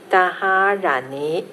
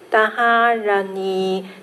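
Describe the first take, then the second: First: The final syllable rises in pitch. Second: The final syllable stays on a level pitch. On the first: "第二个尾巴的尼呢就稍微二声扬上去了啊" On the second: "一个是平音的尼，第一个拉是一声的"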